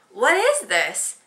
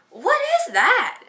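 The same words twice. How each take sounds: First: Slow, louder, puzzled what is this; confused. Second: Very high, slow, drawn-out what is that; a husband baffled by the bag; puzzled surprise. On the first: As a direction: turn it over baffled. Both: Retold or imitated. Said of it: "and he's like".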